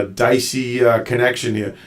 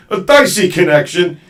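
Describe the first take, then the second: First: Said in the usual way. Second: DICEY connection, pitched up and loud; emphatic repeat. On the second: Real, not acted. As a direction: raise the voice to get DICEY across. Repeats it for guest to hear.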